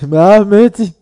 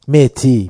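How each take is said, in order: First: The name is said with an h and a d. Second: The name is said with a t and no h. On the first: The speaker calls it right. "مهدی اسمش" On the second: The speaker calls it wrong. "متی چیه؟ خیلی سخت"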